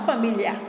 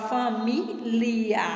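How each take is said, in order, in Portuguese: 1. O 'li' se funde em um único som 'lh'. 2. O 'li' é falado como uma sílaba separada. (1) "e não família" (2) "você fala família"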